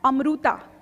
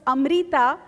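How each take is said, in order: First: The middle vowel sounds like 'oo'. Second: The middle vowel sounds like 'ee'. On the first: This is how others commonly said the name. The speaker calls it wrong. "every Marathi household has these innumerable mispronounced names" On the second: This is the name as officially registered. The speaker calls it right. "her name on the birth certificate was Amrita"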